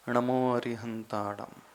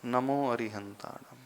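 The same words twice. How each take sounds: First: नमो begun with retroflex ṇ, "ṇamo", recited slowly. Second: Tongue at the teeth for the first sound of नमो; dental न. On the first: Teacher contrasting two chants for students, नमो with retroflex ṇ. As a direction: curl the tongue back for the first sound of नमो. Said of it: "ण में ट, ठ, ड, ढ, ण वाला". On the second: Teacher contrasting two chants for students, नमो with dental n. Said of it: "नल का न है". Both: Shown as a demonstration.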